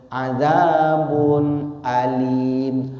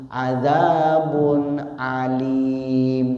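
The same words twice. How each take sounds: No difference in how they are said.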